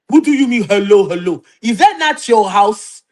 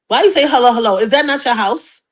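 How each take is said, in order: First: It is said in an African accent. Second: It is said in the speaker's plain accent.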